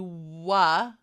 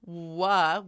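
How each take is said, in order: Both takes have the same delivery.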